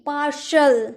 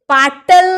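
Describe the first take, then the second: First: The middle consonant is a sh sound. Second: The middle consonant is a t sound. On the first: The speaker calls it right. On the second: The speaker calls it wrong.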